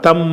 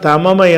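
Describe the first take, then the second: First: The two m sounds merge into one doubled m. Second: The two m sounds are separated by a vowel. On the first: This is the form actually spoken by the rule. "சட்டத்தின் பிரகாரம் தம்ம என்று தான் நம்ம சொல்லணும்" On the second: This is the underlying original form. "அதோட அசலில் இருக்கும்"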